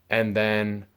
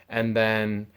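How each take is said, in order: No difference in how they are said.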